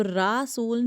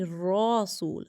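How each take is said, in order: First: "رسول" said with a light, open 'raa'; "رسول" with thin r and 'aa' vowel. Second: "رسول" slow, with a rounded 'raw' start; thick ra. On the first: Teacher showing pupils the wrong reading, thin ra. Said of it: "تو رسول نہیں". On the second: Teacher correcting the reading for pupils, thick ra. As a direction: draw out "رسول", making the first syllable heavy. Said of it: "را موٹا". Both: Shown as a demonstration.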